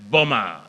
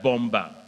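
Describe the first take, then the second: First: The second b is silent. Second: The second b is clearly sounded. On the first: The speaker calls it right. "So suicide bomber" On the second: The speaker calls it wrong. "not suicide bomber"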